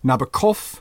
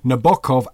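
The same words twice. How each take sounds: First: The stress is on the last syllable. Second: The stress is on the middle syllable. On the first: "Frenchmen, of course, say Nabokov with the accent on the last syllable" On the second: "Italians say Nabokov, accent in the middle"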